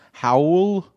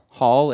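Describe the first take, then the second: First: The vowel sounds like the one in 'owl'. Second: The vowel sounds like the one in 'ball'. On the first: "How do you say the other way then? Howl?" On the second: "I feel like you're saying like hall?"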